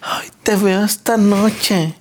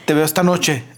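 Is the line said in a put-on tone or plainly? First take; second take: put-on tone; plainly. First: It is said in an affected, suggestive tone. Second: It is said in a plain, neutral tone.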